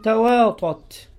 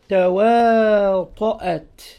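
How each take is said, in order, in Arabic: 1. الهمزة تُخفَّف ولا تُنطق كاملة. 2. يُنطق الهمز قبل المقطع الأخير. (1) "يعني بتسهيل الهمزة" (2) "فأصلها تواطأت بالهمزة"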